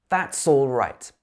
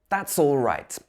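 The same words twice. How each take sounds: No difference in how they are said.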